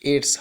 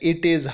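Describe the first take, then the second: First: The words are merged into one contracted word. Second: Both words are said fully and separately.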